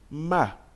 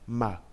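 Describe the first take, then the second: First: The pitch falls sharply from high to low. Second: The syllable is light and short, without pitch contour. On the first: "avec le quatrième temps" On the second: "ça se prononce juste ma"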